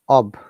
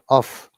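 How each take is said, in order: First: The word ends with a voiced V-like sound. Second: The word ends with a voiceless F sound. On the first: The speaker calls it right. "So O F is always ob" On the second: The speaker calls it wrong. "not off"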